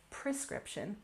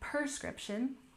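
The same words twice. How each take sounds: First: The word sounds exactly as it is spelled. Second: The word sounds altered from its spelling. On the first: This matches the written form of the word. "even though it's spelled prescription" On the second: This is how many native speakers casually say it. "you'll often hear native speakers say this word as if the spelling was different"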